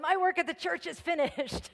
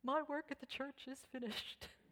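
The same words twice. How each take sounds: First: It is said loudly. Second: It is said softly.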